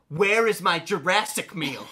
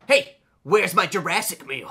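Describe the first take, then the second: First: Slow, pressing, higher repeat; teen repeating the demand to his brother, pushier. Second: Slow, insistent, higher demand; teen demanding his meal from his tired brother, insistent. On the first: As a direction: spell it out impatiently. Repeats the demand, more pointed. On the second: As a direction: lean on it like a spoiled kid. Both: Retold or imitated.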